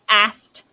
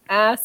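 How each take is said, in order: First: The word ends with a T sound. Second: The word ends without a T sound. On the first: "pronounce like ass with a T" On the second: "if you don't say the T"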